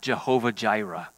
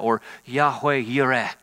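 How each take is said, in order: First: Both words begin with a J sound. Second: Both words begin with a Y sound. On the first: "We say it with a J sound" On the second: "is maybe a little bit more of the modern pronunciation"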